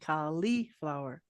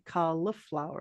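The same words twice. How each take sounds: First: The second syllable has an ee vowel. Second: The second syllable has a short i vowel. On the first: Some people in other US states say it this way. "and you say e" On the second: This is how the speaker personally says it. "I say cauliflower, like a short uh sound"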